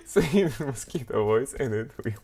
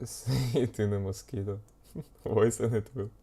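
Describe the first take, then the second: First: Said in the usual way. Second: Laughing through the words; can't stop giggling while saying it. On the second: Real, not acted. Laughing through the repeated line.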